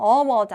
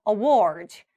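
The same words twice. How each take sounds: First: Award wrongly stressed on the first syllable; wrong front stress. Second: Award stressed on the second syllable; light a, then lean on WARD in award; back stress. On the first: Teacher mimicking the common mistake, front stress. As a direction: hit the A of award. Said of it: "award 아니라". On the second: Teacher giving the correct award, back stress. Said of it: "뒤쪽에 award가 맞아요". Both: Shown as a demonstration.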